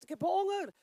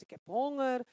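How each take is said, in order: First: The body crying out, higher and louder; lightly voiced demanding body, up and loud; hungry body. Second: A hint of a hungry soul, near her own voice; lightly voiced hungry soul, loud and even; soul's hunger. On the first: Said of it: "En dat lichaam zegt". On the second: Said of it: "Die ziel zegt".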